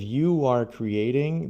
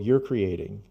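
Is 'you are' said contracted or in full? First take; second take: full; contracted. First: The words 'you are' are said in full. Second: The words 'you are' are contracted to one syllable. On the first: The speaker calls it wrong. "instead of you are creating" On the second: The speaker calls it right. "more like a native speaker"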